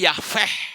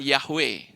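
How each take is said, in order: First: The middle consonant is a v sound. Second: The middle consonant is a w sound. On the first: The speaker calls it wrong. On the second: The speaker calls it right. "Yang betul itu bukan"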